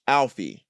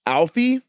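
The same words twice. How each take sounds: First: Said in the usual way. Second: "Alfie" high and loud, rising; "Alfie?" pitched sharply up at the end; questioning repeat. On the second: Acted. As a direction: echo "Alfie" as an incredulous question. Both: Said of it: "just keep saying the thing".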